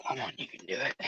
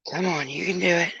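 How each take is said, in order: First: Soft coaxing. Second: Said in the usual way. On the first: Real, not acted. Coaxing the dog.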